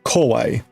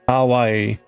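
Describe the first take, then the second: First: The first vowel is rounded, sounding like kowai. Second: The first vowel is a clear open ah. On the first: The cakes are scary. The speaker calls it wrong. "it was sounding much more like kawaii, which kawaii means scary or frightening" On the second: The cakes are cute. The speaker calls it right. "instead of saying ka kawaii"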